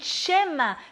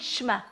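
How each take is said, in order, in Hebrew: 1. המילה נגמרת בצליל גרוני. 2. המילה נגמרת בתנועה פתוחה ופשוטה. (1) "להדגיש את העין, להגיד שמה" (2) "לא להגיד שמה"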